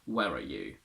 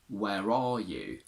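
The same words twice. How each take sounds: First: The word 'are' is said in reduced form. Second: The word 'are' is said in full form. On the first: The speaker calls it wrong. "We can't say" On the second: The speaker calls it right. "We must use it in its strong form in questions"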